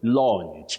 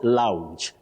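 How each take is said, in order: First: The vowel is a long open 'aw' sound. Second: The vowel is an 'ow' diphthong. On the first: The speaker calls it right. "the long, low back sound O. So you say launch" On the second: The speaker calls it wrong. "not lounge"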